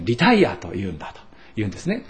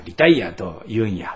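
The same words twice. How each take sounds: First: Said in the usual way. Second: Lightly imitating a Kyoto dialect ending on リタイアと言うんや. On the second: Pastor quoting a retired colleague in mild Kyoto dialect. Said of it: "あの人は京都弁ですが".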